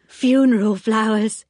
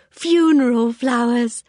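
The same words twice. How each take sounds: First: Louder, higher, strange bright voice; eerie cheery announcement; odd Anthea. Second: Drawn out, higher and louder, eerie; slowly savoured, unsettling; odd Anthea, slower. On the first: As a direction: announce the lilies a little too brightly. Anthea enters with lilies. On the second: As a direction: linger on it before a giggle. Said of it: "a queer, hysterical little giggle". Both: A narrator's reading.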